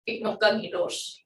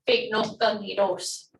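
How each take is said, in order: First: It is said quickly at normal speed. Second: It is said slowly and carefully.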